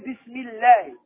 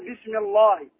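First: The l in Allah sounds light and thin. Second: The l in Allah sounds heavy and full. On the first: The speaker calls it right. "إذا سبقت بمكسور ترقق" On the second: The speaker calls it wrong. "ما تقول بسم الله، خطأ"

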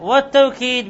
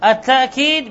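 First: The word has a w sound in the middle. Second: The word has a full glottal stop in the middle. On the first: "بالواو، وأفصحها التوكيد" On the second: "بوجود الهمزة"

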